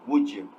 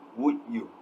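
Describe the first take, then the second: First: The d and y merge into a j sound. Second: The d and y sounds are said separately. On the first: "where the d and y combines into j sound" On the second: "producing the sounds separately instead of combining them"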